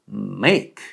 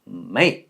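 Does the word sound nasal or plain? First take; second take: nasal; plain. First: The word is said with nasal resonance. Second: The word is said without nasal resonance. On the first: The speaker calls it right. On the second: The speaker calls it wrong.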